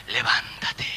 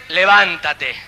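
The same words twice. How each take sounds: First: Whispered levántate, voiceless and very soft. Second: Said in the usual way. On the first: Shown as a demonstration. Pastor gently calling the newly dead to rise, whispered. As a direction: breathe levántate as a hush. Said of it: "voz suavecita". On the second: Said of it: "Dios va a venir a gritarte".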